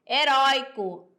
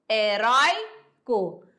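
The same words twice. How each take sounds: First: Said in the usual way. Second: "heróico" slowly split into syllables, "rói" drawn out. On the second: Shown as a demonstration. Teacher showing pupils where the syllables fall, "heróico" slowly syllable by syllable. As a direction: break "heróico" apart, holding "rói" before a separate "co". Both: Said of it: "o co é a última sílaba".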